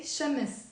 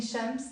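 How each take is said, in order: First: Shams drawn into two syllables, sha-mis. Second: Shams as one syllable, m running straight into s; no vowel between m and s in Shams. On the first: Teacher showing the easier Lebanese form, two syllables. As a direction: add a short vowel between m and s in Shams. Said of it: "making it two syllables". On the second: Teacher showing the form to replace, one-syllable Shams. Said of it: "instead of saying Shams". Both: Shown as a demonstration.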